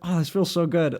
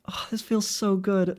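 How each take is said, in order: First: The voice is at its lower natural pitch. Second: The voice is pitched up higher.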